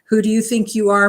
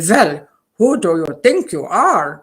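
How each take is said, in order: First: It is said in the speaker's plain accent. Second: It is said in a thick German accent.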